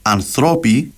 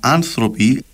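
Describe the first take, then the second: First: The stress is on the second-to-last syllable. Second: The stress is on the third-to-last syllable. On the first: This is the Cypriot or informal form. "Θεωρεί λάθος εντός εισαγωγικών να πεις ανθρώποι" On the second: This is the formal standard form. "αντί για άνθρωποι"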